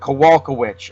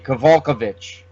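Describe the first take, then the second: First: The ending is said like the word witch. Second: The ending is said with a V sound. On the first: "That's that is usually pronounced witch" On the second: "you could maybe say the W is a V"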